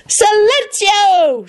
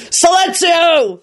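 First: High, very slow spell cry; boy casting silencing spell; shouted spell. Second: High, slow, forceful roar; roared spell. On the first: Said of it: "shouted Teddy". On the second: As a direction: command it over the noise. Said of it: "Lupin roared". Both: A narrator's reading.

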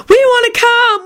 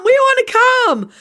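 First: Put-on eager kids shouting. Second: Put-on very high kid voices, insistent; eager kids repeating. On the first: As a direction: beg like excited kids. Boys clamouring in story. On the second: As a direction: chant it again like kids. Boys repeat clamour.

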